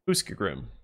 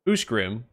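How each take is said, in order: First: The middle of the name has an sk sound. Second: The middle of the name has an sh sound. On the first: The speaker calls it wrong. "and not Uskgrim" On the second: The speaker calls it right. "Ushgrim and not Uskgrim"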